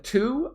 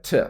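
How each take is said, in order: First: "to" said fully, like "too"; stressed "to" with a long oo; full strong form. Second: "t" said as a short "tuh"; "t", the word to reduced to a schwa; weak form. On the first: Teacher showing what not to say, full "to". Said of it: "Instead of to". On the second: Teacher showing the natural form, reduced "t". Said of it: "I just said t". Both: Shown as a demonstration.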